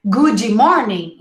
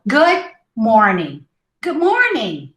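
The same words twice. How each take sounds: First: Goody morning, ee after good; wrong extra vowel. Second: Good morning with the d of good swallowed; unreleased D. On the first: Teacher shows the error, Goody before morning. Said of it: "Instead of goody morning". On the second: Teacher models good morning, d almost unheard. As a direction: stop good short before morning. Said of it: "You almost don't hear the D". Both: Shown as a demonstration.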